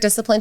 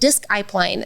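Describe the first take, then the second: First: The word starts with a plain 'diss' sound. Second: The word starts with a clear 'disk' sound.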